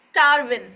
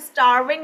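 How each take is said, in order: First: The final g sound is dropped. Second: The final g sound is pronounced fully. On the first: "like starvin" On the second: "you are going to say this starving"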